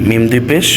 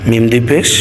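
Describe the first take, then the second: The two takes are said the same way.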